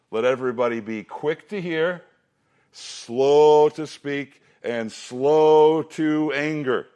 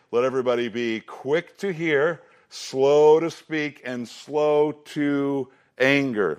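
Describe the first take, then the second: First: Slow, drawn-out slow to speak; memory verse recitation. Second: Slow, drawn-out stress on each slow; memory verse recitation. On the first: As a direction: lead the kids through the verse. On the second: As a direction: chant it for the class to memorize. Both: Shown as a demonstration. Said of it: "I'll do that one more time".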